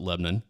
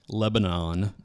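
First: The name is said in the local way. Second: The name is said as it is spelled. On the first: This form marks the speaker as being from the area. "everyone around here calls it Lebanon" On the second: This is the spelling-based form of the name. "it is spelled Lebanon"

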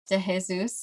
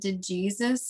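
First: Jesus is pronounced the Spanish way. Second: Jesus is pronounced the English way. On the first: The speaker calls it right. "she's like, you mean" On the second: The speaker calls it wrong. "And then I said"

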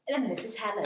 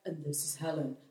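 First: It is said in her normal voice. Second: It is said in a lowered, deep voice.

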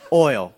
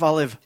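First: The word is said with one syllable. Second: The word is said with two syllables. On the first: The speaker calls it right. "one syllable" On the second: The speaker calls it wrong.

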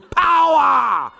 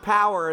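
First: The word is shouted with great force and energy. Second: The word is said mildly, without much force. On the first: This is the kind of power the church wants. The speaker calls it right. "We do power. I mean, you got to like, your hair's got to flap" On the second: This is the kind of power the church does not want. The speaker calls it wrong. "we don't do power in this church"

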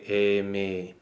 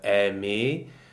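First: The first vowel is between open and closed. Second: The first vowel is a fully open e. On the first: "you could say aimer. But you still hear a slight difference between the two" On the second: "instead of saying aimer"

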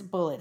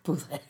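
First: It is said like the word bullet. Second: It is said like boo-lay, with a French-sounding ending. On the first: The speaker calls it right. "But it's Bullet" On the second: The speaker calls it wrong. "It's not Bullet"

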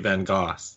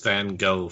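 First: The name is said unlike the North American way. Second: The name is said the common North American way. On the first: The speaker calls it right. "even though it's very clearly Van Gogh" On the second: The speaker calls it wrong. "Everybody in Canada and the States, except for me, I think pronounces it as Van Gogh"

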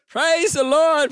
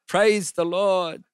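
First: It is said loudly and boldly. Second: It is said quietly and awkwardly.

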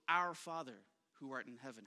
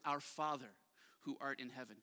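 First: The word "our" carries the main stress. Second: The word "Father" carries the main stress. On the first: "On one day, emphasize one word" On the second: "Day two, emphasize the next word"

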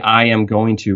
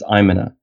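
First: Every word is said fully and separately. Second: The words are squeezed together into a reduced form.

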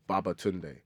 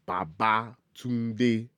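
First: The name is said with English-style stress. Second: The name is said with Yoruba tones. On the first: The speaker calls it wrong. "people go Babatunde. It's not Babatunde" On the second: The speaker calls it right. "It's Babatunde"

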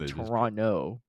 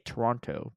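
First: The second T is dropped. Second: The second T is clearly pronounced. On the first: The speaker is a true local. The speaker calls it right. "you say Toronto without the T" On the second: The speaker is American. The speaker calls it wrong. "Americans say Toronto because you see the T"

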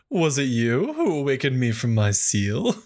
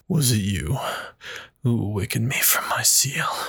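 First: It is said in a voice that is not scary. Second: It is said in a scary demon voice.

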